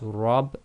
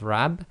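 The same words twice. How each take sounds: First: The vowel is heavy, like ar in art. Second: The vowel is light, like a in apple. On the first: The speaker calls it right. "that's why it's rab" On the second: The speaker calls it wrong. "instead of rab"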